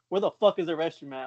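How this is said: It is said in an aggressive tone.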